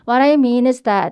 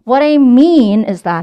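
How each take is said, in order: First: The sentence is said flat, with no strong stress. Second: The word mean gets strong, exaggerated stress. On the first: The speaker calls it wrong. "아니고요" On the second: The speaker calls it right. "mean에다가 강조 들어가 볼게요"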